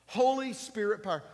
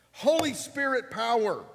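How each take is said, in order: First: Preaching, a touch less. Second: Loud and high, stress on Holy; preaching. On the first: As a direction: repeat it with less push. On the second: Pastor calling out to church, loud. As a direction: ring out HOLY Spirit power. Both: Acted.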